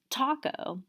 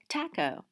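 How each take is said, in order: First: American accent, with an open 'ah' vowel. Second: British accent, with a different front vowel. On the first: "a lot of Americans would say taco with the ah" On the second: "If you're British, you might say things like taco"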